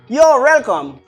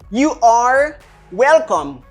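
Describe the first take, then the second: First: You are is contracted into one syllable. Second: You are is said as two full words.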